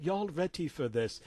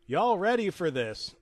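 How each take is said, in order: First: Put-on British accent; distinguished British accent. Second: Said in the usual way. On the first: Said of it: "he said in his distinguished British accent". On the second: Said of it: "except he said in his distinguished British accent".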